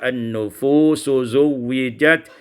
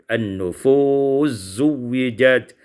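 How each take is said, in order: First: The s is kept before zuwijat. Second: The s merges into a doubled z.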